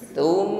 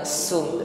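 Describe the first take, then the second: First: It begins with a light, breathy 'th' sound. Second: It begins with a plain 's' sound. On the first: The speaker calls it right. "Tum sa ya, Tum ringan tipis nafasnya" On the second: The speaker calls it wrong. "bukan sum"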